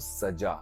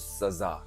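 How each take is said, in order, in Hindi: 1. बीच का व्यंजन j ध्वनि है। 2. बीच का व्यंजन z ध्वनि है। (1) "दुल्हन को सजा" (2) "और जा में नुक्ता लग गया तो सजा"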